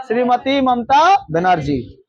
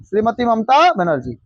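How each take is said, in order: First: "Shrimati Mamata Banerjee" said slowly, each word spaced, stress on "Mamata"; slow emphatic name. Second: Said in the usual way. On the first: Shown as a demonstration. Teacher drills the chief minister's name for students to memorise, slow and emphatic. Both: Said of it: "याद रहेगा".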